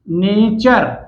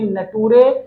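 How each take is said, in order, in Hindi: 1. t को ch ध्वनि की तरह बोला जाता है। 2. t को सामान्य t ध्वनि की तरह बोला जाता है। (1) "यू आर ई का जो साउंड होगा वो क्या होगा बेटे, चा होगा" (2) "ये नटूरे बिल्कुल भी नहीं है"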